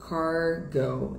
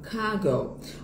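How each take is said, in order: First: It is said with an American English accent. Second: It is said with a British English accent. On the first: "Inglês americano" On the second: "Inglês britânico"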